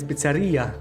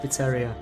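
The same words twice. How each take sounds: First: It is said the Italian way, stress on 'i'. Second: It is said the English way, stress not on 'i'.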